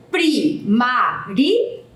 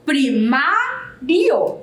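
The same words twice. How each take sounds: First: "Primário" slowly split into four separate syllables. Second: "Primário" with the second syllable MA long and strong; stress on MA. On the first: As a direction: sound out "Primário" as pri, ma, ri, o with pauses. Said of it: "Ela possui quatro sílabas". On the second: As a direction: stretch out the MA in "Primário", then finish the word. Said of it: "ela é a sílaba que é mais forte". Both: Shown as a demonstration.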